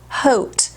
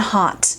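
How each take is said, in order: First: The vowel is an 'oh' sound, like coat. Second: The vowel is an 'ah' sound, like caught. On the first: The speaker calls it wrong. "it should be H O A T, like coat" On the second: The speaker calls it right. "A U to me is an ah sound, like caught"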